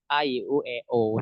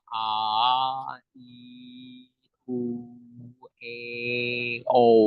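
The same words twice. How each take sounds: First: The vowels are mumbled with a barely open mouth. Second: The vowels are said clearly with a wide-open mouth. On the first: The speaker calls it wrong. "jangan kayak" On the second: The speaker calls it right. "secara jelas"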